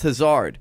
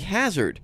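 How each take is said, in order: First: It sounds unlike the English word hazard. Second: It sounds like the English word hazard. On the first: "But it's pronounced Hazard" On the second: "It's spelled like hazard"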